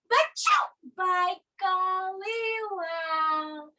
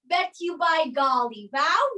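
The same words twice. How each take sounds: First: The t and y merge into ch. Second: The t and y sound separately. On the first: The speaker calls it right. "You say" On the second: The speaker calls it wrong. "you don't say"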